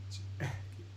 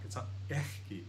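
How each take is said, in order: First: Ekki with a soft breath before the k; right ekki. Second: Ekki with a harsh German Bach ch; wrong ekki. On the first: Teacher showing the right way to say ekki, soft breath. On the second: Teacher showing the wrong way to say ekki, harsh ch. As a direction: ekki said as ech-ki, throat scrape. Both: Shown as a demonstration. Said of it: "It's not ekki, it's ekki".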